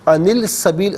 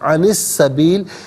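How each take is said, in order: First: An 'l' sound is heard before 'sabil'. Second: No 'l' sound; the 's' is doubled. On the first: The speaker calls it wrong. "अनिल सबील गलत है" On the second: The speaker calls it right. "क्योंकि यहाँ लाम की आवाज़ नहीं होगी"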